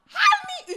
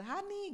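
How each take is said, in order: First: "Hani!" bursts out full, much higher and louder; wife's voice suddenly returns calling husband; sudden shout. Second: Weak raspy "Hani", much higher and softer; wife calls husband with a hoarse voice. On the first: Startling full-voiced yell of "Hani!". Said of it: "dia kaget, saya kaget". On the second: Half-voiced croaking "Hani". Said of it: "Tapi kan serak". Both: Retold or imitated.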